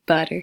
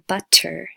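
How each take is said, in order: First: The middle consonant is a quick D-like flap. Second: The middle consonant is a crisp, released T. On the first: The speaker calls it right. "you get it" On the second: The speaker calls it wrong. "You don't hear butter"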